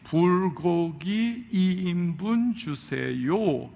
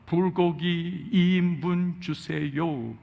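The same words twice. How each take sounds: First: The phrase is said more slowly. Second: The phrase is said at a normal pace. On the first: "또다시 더 천천히" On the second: "그 미국 사람 발음으로"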